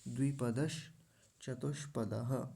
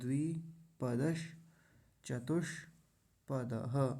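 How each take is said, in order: First: The phrase is said smoothly without breaks. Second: The phrase is broken into four separate pieces. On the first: "अब सबको मिलाएंगे" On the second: "चार जगह तोड़ लिया"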